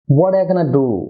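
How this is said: It is said casually, with 'going to' reduced.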